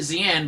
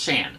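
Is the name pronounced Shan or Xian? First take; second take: Xian; Shan. First: The name is pronounced as Xian. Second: The name is pronounced as Shan. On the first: This is how the name was said as a child. The speaker calls it wrong. "I always pronounced it Xian" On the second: This is how the name is actually said. The speaker calls it right. "her name is actually pronounced Shan"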